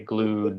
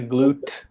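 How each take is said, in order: First: The final sound is a d. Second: The final sound is not a d. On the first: The speaker calls it right. "We say glued" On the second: The speaker calls it wrong. "we don't say glute"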